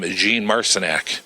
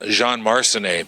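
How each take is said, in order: First: The surname has the changed Indy pronunciation. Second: The surname has its original pronunciation. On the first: This is how people at Indy came to say it. "when he got to Indy, he became Jean Marcinac" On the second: This is the name as it was first said. "the famous uh, mechanic was Jean Marcinet"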